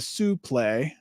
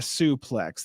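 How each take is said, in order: First: The word is said in a French-sounding way. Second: The word is said in a plain English way. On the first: The speaker calls it right. "it's actually a suplex ... It's French" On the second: The speaker calls it wrong. "not a suplex"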